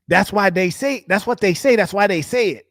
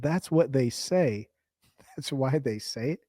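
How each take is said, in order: First: Higher, sing-song parroting; mock bro repeating himself, higher. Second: Slow, softer, dopey parroting; slow, quiet mock of bro's line; mocking slow repeat. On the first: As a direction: echo him back like a broken record. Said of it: "what'd you say?". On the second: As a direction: drag it out like he's dim. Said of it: "You said".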